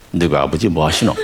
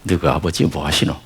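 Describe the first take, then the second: First: Put-on second go at a Gyeongsang accent, rising at the end; mild imitated Gyeongsang accent; Gyeongsang dialect try. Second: Lightly attempted Gyeongsang accent; a hint of Gyeongsang dialect. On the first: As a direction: imitate a Busan local asking, rising on 하시노. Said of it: "흉내내는 것 같죠?". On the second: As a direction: try the Busan dialect question, not quite landing. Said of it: "첫 번째 알려준 게 뭐냐".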